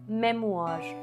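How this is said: The final R sound is pronounced. "This is the American pronunciation"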